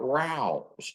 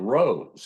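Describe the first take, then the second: First: The vowel rhymes with 'house'. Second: The vowel rhymes with 'nose'. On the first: The speaker calls it right. "she was really talking about Rouse with a possessive S" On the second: The speaker calls it wrong. "I thought it was Rose as in R O S E"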